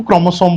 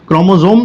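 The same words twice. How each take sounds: First: क्रोमोसोम with an unvoiced s, "kromo-some"; s pronunciation. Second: क्रोमोसोम with a voiced z, "kromo-zome"; z pronunciation. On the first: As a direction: say क्रोमोसोम with a clean s before the final "om". (क्रोमोसोम को स की साफ़ आवाज़ से बोलें, ज़ नहीं) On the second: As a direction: say क्रोमोसोम with a buzzing z before the final "om". (क्रोमोसोम को "क्रोमोज़ोम" बोलें, ज़ की आवाज़ के साथ) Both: Shown as a demonstration. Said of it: "दोनों प्रोनाउंसिएशन सही है".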